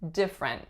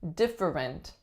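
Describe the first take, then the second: First: The word is said with only two syllables. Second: The word is said with three full syllables. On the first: "most people take that one out" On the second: "add in that middle syllable"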